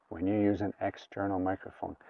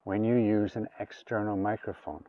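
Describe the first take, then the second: No difference in how they are said.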